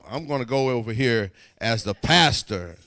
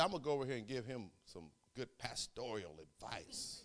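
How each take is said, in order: First: Louder, laughing declaration of being the pastor; bold announcement. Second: Laughing aside. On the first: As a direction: proclaim it with a chuckle. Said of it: "like a pastor would". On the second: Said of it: "'Cause, you know, I'm the pastor". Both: Real, not acted.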